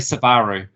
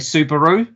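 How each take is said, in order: First: It is said the New Zealand way. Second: It is said the American way.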